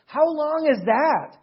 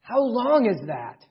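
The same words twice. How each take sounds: First: "HOW long is that?" pitched higher and said slowly, stress on how; slow, high-pitched emphasis on "how". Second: Slow, leaning on "long", falling off at the end; "how LONG is that?" with the weight on long; stress on long. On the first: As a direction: stretch out "how" like a challenge. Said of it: "It's eternal, right?". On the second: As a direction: press down on "long" as a question to ponder. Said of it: "if God has given me something eternal or everlasting". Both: Shown as a demonstration.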